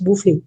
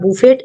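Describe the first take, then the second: First: The final t sound is silent. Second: The final t sound is pronounced. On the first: The speaker calls it right. "टी is silent here, it's बूफे" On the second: The speaker calls it wrong. "It's not बुफेट"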